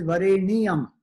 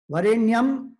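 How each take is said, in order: First: Vareniyam said in four syllables, va-re-ni-yam; Vareniyam with full na. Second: Varenyam said in three syllables, va-ren-yam; Varenyam contracted. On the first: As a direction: sound the extra ni in Vareniyam clearly. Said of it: "there is na which is full". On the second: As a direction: glide the ny together in Varenyam. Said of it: "Varenyam actually is twenty-three syllables". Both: Shown as a demonstration.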